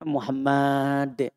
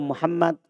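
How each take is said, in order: First: The first m sound is drawn out long. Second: The first m sound is short. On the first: The speaker calls it wrong. "Masa panjang mimnya" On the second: The speaker calls it right. "Nama beliau Muhammad"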